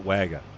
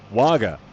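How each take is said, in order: First: Wagga with the A of wag; local short A. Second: Wagga said WOGGA; open AH. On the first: Relaying what locals say, Wagga with A as in wag. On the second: Repeating a town name to viewers, Wagga with open AH. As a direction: say Wagga with an AH in the first syllable. Locals just call it Wagga. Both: Shown as a demonstration.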